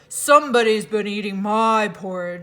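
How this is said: It is said in a deep, gruff voice.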